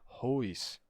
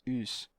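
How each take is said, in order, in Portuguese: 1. A palavra começa com um h aspirado. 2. A palavra começa direto com a vogal. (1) "Não tem mais aspiração. Isso daqui não é hous" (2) "Isso daqui é us"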